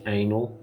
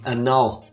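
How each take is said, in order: First: It is pronounced like the word anal. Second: It is pronounced like the word annul. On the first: It is a crude joke word. The speaker calls it wrong. "I pronounce it as anal" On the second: It means to cancel or erase something. The speaker calls it right. "Maybe it's supposed to be annul"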